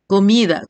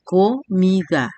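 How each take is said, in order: First: Said in the usual way. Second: "comida" slowly as co-mi-da; split into syllables. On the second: Shown as a demonstration. Teacher dividing an example word, syllable by syllable. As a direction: say "comida" in three separate, drawn-out beats. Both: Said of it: "Las sílabas se separan".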